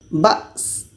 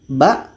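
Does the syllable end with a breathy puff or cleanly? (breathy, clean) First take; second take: breathy; clean. First: The syllable ends with an audible puff of breath. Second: The syllable ends cleanly without any puff of breath. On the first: The speaker calls it wrong. "baca anginnya seperti ini" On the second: The speaker calls it right. "Jangan sampai ada anginnya"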